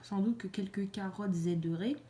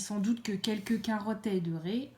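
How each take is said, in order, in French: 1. Un son z relie carottes à aideraient. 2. Aucun son z ne relie carottes à aideraient. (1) "On ne fait pas la liaison avec le S parce que ça fait bizarre de dire" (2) "ça fait euh, plus joli"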